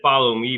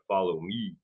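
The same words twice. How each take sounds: First: It is said in an ordinary speaking voice. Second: Very deep voice, last syllable pushed out higher. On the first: "So he said" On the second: "but he kinda said it like, very deep, the last syllable it kinda had to push out, higher pitched"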